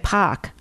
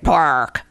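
First: The R is dropped, Boston-style. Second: The R is pronounced hard, New York-style. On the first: "instead of saying like park, you'll say pock" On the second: "New Yorkers like me have a real hard R"

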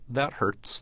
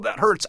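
First: It is said calmly, without emotion. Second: It is said with emotional distress.

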